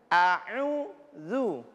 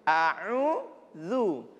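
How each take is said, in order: First: The u sound comes out through the mouth. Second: The u sound comes out through the mouth.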